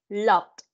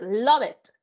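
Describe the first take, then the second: First: It is one syllable ending in a d sound. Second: It ends with an extra syllable like it. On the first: The speaker calls it right. "Pasado, loved" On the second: The speaker calls it wrong. "no me va a decir love it, no"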